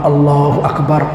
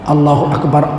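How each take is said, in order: No difference in how they are said.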